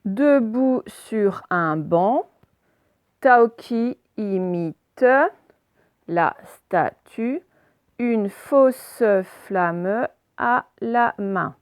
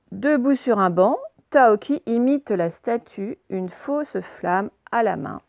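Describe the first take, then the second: First: Slow deliberate reading. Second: Said in the usual way. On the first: Shown as a demonstration. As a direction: read very slowly, word by word. Teacher models slow word-by-word reading.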